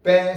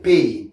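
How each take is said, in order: First: "Pain" with nasal vowel, silent N; French nasal pronunciation. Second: "pain" with AY glide and sounded N; English pronunciation. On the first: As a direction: say "Pain" as the French bread word. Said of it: "on mange en français". (« Pain » à la française, nasalisé) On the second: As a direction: say "pain" as the English word for hurt. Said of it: "Pain, c'est douleur". (« pain » à l'anglaise, N prononcé) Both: Shown as a demonstration.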